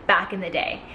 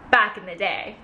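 No difference in how they are said.

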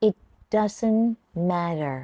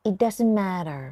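First: "It doesn't", pause, "matter" falling; in two chunks. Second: Said in the usual way. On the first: Shown as a demonstration. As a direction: break it after "doesn't". (แบ่งพูด "It doesn't" แล้วหยุด ต่อ "matter" เสียงลง) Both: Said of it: "ฝึกฟังแล้วออกเสียงตาม[name]นะคะ".

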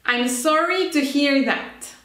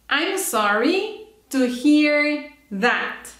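First: Said in the usual way. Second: Slow, drawn-out model for repeating; careful slow teacher demo; slow model phrase. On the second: Shown as a demonstration. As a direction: stretch each word of "I'm sorry to hear that" so students can copy. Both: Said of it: "Listen and repeat".

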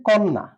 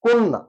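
First: কন্যা with an open 'o' as written; spelling pronunciation. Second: কন্যা said 'konna' with a closed 'o' and doubled n; higher, clear teacher's demo of কন্যা as 'konna'; correct pronunciation demo. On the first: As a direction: say কন্যা as spelt, open first vowel. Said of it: "লিখবো হচ্ছে কন্যা". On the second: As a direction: model কন্যা firmly as 'kon-na'. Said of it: "কিন্তু উচ্চারণ করে কিভাবে". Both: Shown as a demonstration.

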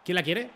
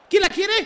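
First: Said in the usual way. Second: High, loud teasing call; excited shout. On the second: Real, not acted. Streamer shouts at his rivals, high and loud. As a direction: yell it out like taunting the defenders. Repeated calls, rising.

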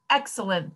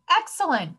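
First: Said in the usual way. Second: High, falling exclamation; excited cry. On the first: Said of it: "thought Sammy". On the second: A narrator's reading. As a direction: burst out with childlike delight. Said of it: "cried Sammy".

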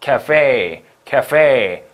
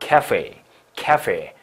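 First: 카페 as American café, louder stressed last syllable; American-style 카페, second syllable stressed; American end stress. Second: 카페 as British café, first syllable stressed, lower pitch; British-style 카페 with stress up front. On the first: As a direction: punch the end of 카페, with an English F. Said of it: "요게 정식 미국식 발음이고요". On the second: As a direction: lean on the start of 카페, falling after. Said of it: "앞에 강세가 있어". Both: Shown as a demonstration.

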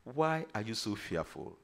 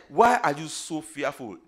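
First: Soft, low question; gentle reproach. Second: Loud, challenging question; forceful rebuke. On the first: Jesus turning to his own after calming the wind, quiet reproach. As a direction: lower the voice and ask quietly. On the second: Preacher quoting Jesus to the fearful disciples, loud rebuke. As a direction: put the question out firmly and loudly. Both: Acted.

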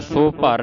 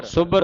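First: ਸੋ ਭਰ as two words, so par; long o and a break in ਸੋ ਭਰ; wrongly split word. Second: ਸੁਭਰ as one word, sub-bar; short u and firm doubled b in ਸੁਭਰ; doubled consonant. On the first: Teacher shows what to avoid, ਸੋ ਭਰ split. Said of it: "ਸੋ ਭਰ ਨਹੀਂ ਬੋਲਣਾ". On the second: Teacher models correct reading, ਸੁਭਰ as sub-bar. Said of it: "ਅਧਿਕ ਲਾ ਕੇ ਉਚਾਰਨ". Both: Shown as a demonstration.

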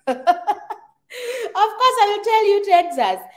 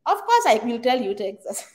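First: High, louder laugh through the words; laughing, emphatic. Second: Said in the usual way. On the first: Real, not acted. Laughing as she insists to Michelle on Texas. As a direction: burst out laughing as you insist. Repeats answer to viewer about states.

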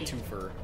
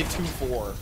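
First: TWOFER run together as "TOO-fur"; reduced twofer. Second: TWO FOUR as two full words. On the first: Streamer giving their own way, TWOFER as one word ending "fer". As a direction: weaken the end of TWOFER to "fer". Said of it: "I say twofer". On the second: Streamer rejecting a pronunciation, TWO FOUR said as separate full words. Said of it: "I don't say two four". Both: Shown as a demonstration.

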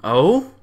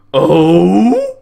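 First: Said in the usual way. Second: Loud, high, drawn-out mock Oh; a loud put-on gasp of surprise; mock surprised oh. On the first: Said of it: "that's how she said it". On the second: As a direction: imitate her startled Oh, hammed up. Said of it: "I'll bet that's how she said it".

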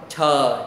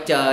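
First: "chờ" with a strong puff of air after the "ch"; aspirated sound. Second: "chờ" with no puff of air, as in Vietnamese; unaspirated wrong take. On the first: Teacher shows students the correct consonant, aspirated sound. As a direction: let the breath burst out on "chờ". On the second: Teacher shows students what to avoid, unaspirated wrong take. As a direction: say "chờ" with the breath held back. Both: Shown as a demonstration. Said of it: "không phải chờ nha".

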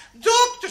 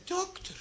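First: High, loud mock-distressed cry; alarmed patient. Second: High, hushed mock dismay; dismayed patient. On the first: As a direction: cry out for the doctor in comic alarm. Woman repeats it more urgently. (luid en hoog, ontzet) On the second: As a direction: softly appeal to the doctor, pitched high. Woman phones doctor in dismay. (hoog en zacht, ontdaan)

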